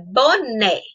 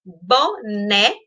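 First: Said in the usual way. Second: "Boné" split in two: bo, né; separado em sílabas. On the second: Shown as a demonstration. ("Boné" silabado, bo-né) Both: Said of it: "Separei ela duas vezes".

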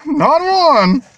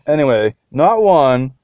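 First: High squealing NOT ONE, drawn out; excited squeal. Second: Said in the usual way. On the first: Acted. Collector teasing his viewers, high excited squeal. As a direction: squeal it like a giddy fan.

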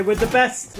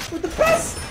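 First: Said in the usual way. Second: Squeaky-high pep talk; high-pitched boast. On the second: Real, not acted. Same words repeated in high voice.

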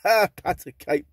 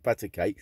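First: Slow, loud, amused reading of the title; drawn-out laughing read. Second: Said in the usual way. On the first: Real, not acted. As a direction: chuckle it out, savouring the silliness. Reading nursery title off record.

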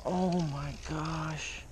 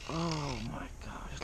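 First: Said in the usual way. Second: Breathless whispered wonder; awed whisper. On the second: Real, not acted. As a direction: whisper it in awe. Landing a big trout.

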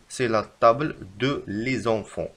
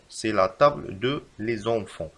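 First: Slow, careful wrong example; slow dictation. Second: Slow, even reread; slow repeat. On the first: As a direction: dictate it slowly. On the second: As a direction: repeat it slowly. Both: Shown as a demonstration. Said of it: "فالخطأ في هذه الجملة".

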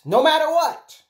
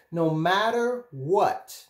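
First: "no matter what" high and loud; emphatic insistence. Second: "No matter what" drawn out slowly; slow, deliberate reassurance. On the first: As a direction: drive home "no matter what", raised and forceful. Repeats it with far more force. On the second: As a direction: stretch out "No matter what" at usual volume. First take of repeated reassurance. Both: Real, not acted.

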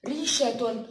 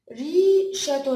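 First: Said in the usual way. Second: Very slow, louder "ريشة", syllables stretched apart; sounded out. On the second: Shown as a demonstration. Teacher repeating the word slowly for children to split it. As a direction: draw the word out for the kids. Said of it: "ايه اللي هيروح الأول".

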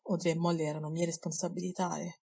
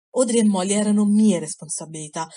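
First: Subdued admission. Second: Loud forceful retort cutting him off; angry interruption. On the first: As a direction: let it fade out softly before he cuts in. Percy's quiet, subdued line. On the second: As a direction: throw the words back at him, hard. Harry cuts in, shouting. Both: A narrator's reading.

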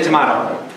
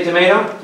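First: "tomato" said as to-MAH-to; tomato, broad a. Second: "tomato" said as to-MAY-to; tomato, long a. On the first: Answering with the other way people say "tomato", to-MAH-to. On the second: Quoting one way people say "tomato", to-MAY-to. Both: Shown as a demonstration. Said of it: "Some say tomato".

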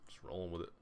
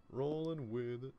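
First: Said in the usual way. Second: High, drawn-out sing-song repeat; playful echo. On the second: Real, not acted. Player echoing himself at work, playful echo. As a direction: stretch it out slowly at a higher pitch. Echoes own words playfully.

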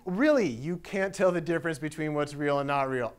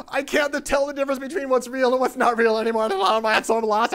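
First: Said in the usual way. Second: High, loud hysterical lament; acted freaking out. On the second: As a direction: wail it out like someone losing his mind. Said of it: "He's freaking out".

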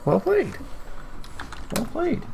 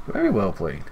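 First: Much higher, mock-posh little compliment; a hammed-up high voice for a cheeky well played; silly put-on voice. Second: Said in the usual way. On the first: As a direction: pitch way up and play a character saying well done. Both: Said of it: "I'm sorry, if I do accents as well".

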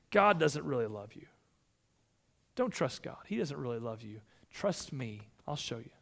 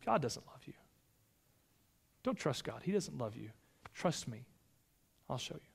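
First: Tempting Satan. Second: Much softer sly serpent voice; hushed tempting Satan. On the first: Satan tempting, quoted in sermon. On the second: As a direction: let the temptation sink almost to a hush. Satan tempting again, retold today. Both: Acted.

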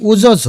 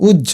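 First: উজঝ as u-jo-jho; without hasanta. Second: উজ্জ as uj-jho; with hasanta. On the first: Teacher showing a missing hasanta, উজঝ said u-jo-jho. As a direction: put an o between the j sounds in উজঝ. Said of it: "হসন্ত এখানে না দিলে উচ্চারণ হবে". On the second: Teacher showing why hasanta is needed, উজ্জ said uj-jho. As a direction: join the doubled j in উজ্জ with no vowel between. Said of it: "এই জন্য হসন্ত দিলাম". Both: Shown as a demonstration.

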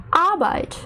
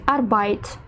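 First: Arbeit stressed on the first syllable, AR; correct stress. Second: Arbeit stressed on the last syllable, BEIT; wrong stress. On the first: Teacher gives the right version, AR stressed in Arbeit. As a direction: say ARbeit, weight on the start. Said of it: "правильно буде". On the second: Teacher imitates a wrongly learned word, BEIT stressed in Arbeit. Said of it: "неправильно завчили слово". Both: Shown as a demonstration.

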